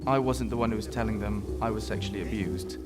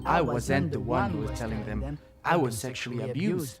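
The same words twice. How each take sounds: First: Plain English accent with ordinary, even stress. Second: French-tinged accent, with heavy stress on 'them'. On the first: "rather than saying" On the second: "he's putting the stress where I wouldn't put the stress. So he's saying"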